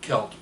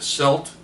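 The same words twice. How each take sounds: First: The word begins with a K sound. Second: The word begins with an S sound. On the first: This is the preferred way to say it. "I prefer Celt" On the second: Other people say it this way. "Some people will say a celt"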